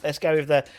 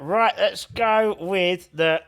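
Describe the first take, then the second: First: Said in the usual way. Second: Talking with a penny in mouth; words round a coin in mouth. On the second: Real, not acted. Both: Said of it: "I've got a penny in my mouth".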